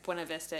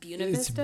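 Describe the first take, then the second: First: It is pronounced the standard, expected way. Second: It is pronounced the local Colorado way.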